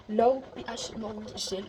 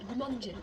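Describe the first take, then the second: First: Reading the product name in her best English accent, slowly. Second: Said in the usual way. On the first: Real, not acted. Vlogger reads the cleanser's name to viewers in slow English accent. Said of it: "l'accent anglais, tout il est pas ouf".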